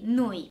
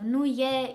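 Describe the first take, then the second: First: The two words merge into one syllable. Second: The two words are said separately. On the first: "This is what happens when you speak very fast" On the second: "instead of"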